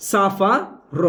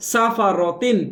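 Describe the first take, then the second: First: সাফা র with a breathed h closing র; stopped h ending. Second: সাফা র তিন with final tin sounded; unstopped ending. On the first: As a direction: end সাফা র in h instead of t-i-n. (থেমে শেষে হা দিয়ে সাফা র) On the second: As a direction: carry সাফা র তিন through to its t-i-n. (না থেমে শেষে তিন দিয়ে সাফা র তিন) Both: Shown as a demonstration. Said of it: "থামলে র হা জবর র হয়ে যাবে".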